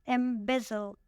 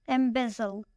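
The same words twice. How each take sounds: First: "Embezzle" split as em-BEZ-zle; stress on second syllable. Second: Said in the usual way. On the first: Shown as a demonstration. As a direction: model "Embezzle" carefully, leaning on BEZ. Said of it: "the stress is on the second syllable". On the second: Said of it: "The next word is embezzle".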